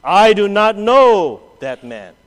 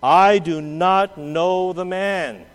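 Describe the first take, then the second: First: Slow, loud sworn denial; emphatic slow denial. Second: Slow, deliberate denial with an oath; slow sworn denial. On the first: Peter denying his Lord before all, slow and loud. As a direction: bang out each word of the denial. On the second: Peter swearing an oath to the servants, slow and deliberate. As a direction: swear it word by word. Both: Acted. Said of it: "denied with an oath".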